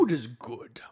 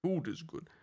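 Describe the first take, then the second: First: Lightly voiced game announcer; game narrator voice. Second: Higher echo of the game line; game narrator voice. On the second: Acted. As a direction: repeat the game announcer line. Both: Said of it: "the guy from Gauntlet Legends".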